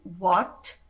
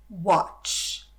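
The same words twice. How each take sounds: First: "What" with a short, dry T. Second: "Watch" ending in a hissing ch; hissed ch. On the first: Teacher contrasting two English words for students, dry T. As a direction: stop "What" dead on the T. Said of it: "ele é bem sequinho". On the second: Teacher contrasting two English words for students, hissed ch. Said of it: "Existe a palavra chiada, que é watch". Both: Shown as a demonstration.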